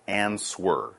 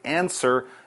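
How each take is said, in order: First: The word is said with a W sound. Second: The word is said without a W sound. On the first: The speaker calls it wrong. "not answer" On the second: The speaker calls it right. "we don't say it. So you say answer"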